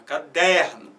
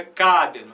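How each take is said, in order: First: Caderno with the weight on DER: ca-DÉR-no; natural caderno, firm stress in the middle; stress on middle syllable. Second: Caderno with the weight on CA: CÁ-derno; wrong version of caderno, stressed at the start; stress on first syllable. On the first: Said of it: "Bota na do meio". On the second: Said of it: "tenta botar força nessa primeira". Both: Shown as a demonstration.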